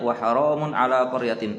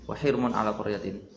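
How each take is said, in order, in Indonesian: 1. Kata ini diucapkan 'haramun', lebih panjang. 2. Kata ini diucapkan 'hirmun', lebih pendek. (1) "Beliau mengikuti Imam Hafaz bacanya wa haramun" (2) "Seingat saya Hamzah Kisai macamnya wahirmun"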